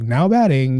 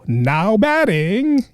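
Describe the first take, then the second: First: It sounds subdued, not happy. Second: It sounds too happy and upbeat.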